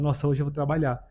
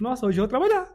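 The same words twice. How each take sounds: First: It sounds weary and reluctant. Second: It sounds cheerful and glad. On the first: Going to work is a burden. "Tem um lugar que a gente vai, que fala" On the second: Going to work is something to look forward to. "Mas aqui é tipo ... Tipo, legal"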